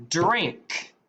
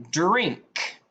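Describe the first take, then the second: No difference in how they are said.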